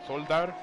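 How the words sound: The name is said the Dutch way.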